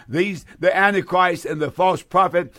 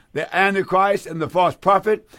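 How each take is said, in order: No difference in how they are said.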